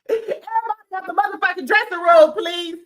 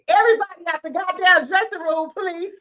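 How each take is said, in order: First: High, loud, fast order to clear out; mock shout. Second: Mock shout. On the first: Imitating Doctor Jackie ordering everyone out, loud. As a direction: bark them out of the room, then sweet please. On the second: Doctor Jackie ordering everyone out, mock shout. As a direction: clear the room, sugar-coat the ending. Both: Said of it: "this is what Doctor Jackie was giving".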